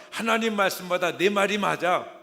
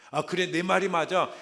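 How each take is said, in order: First: Much louder mock proclaiming with 하나님 stressed; hammed-up agreement. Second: Loud, much louder mock agreement with 말이 stressed; hammed-up agreement. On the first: Believer siding with Satan over God, loud hammed-up claim. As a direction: push 하나님 out loud and falling. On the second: Believer swallowing Satan's lie, hammed-up loud agreement. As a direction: proclaim 말이 loud and falling.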